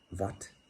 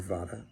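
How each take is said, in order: First: The word ends on a consonant, without final vowel. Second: The word ends with a final vowel sound. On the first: This is how it is said in India. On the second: This follows how the word is spelled.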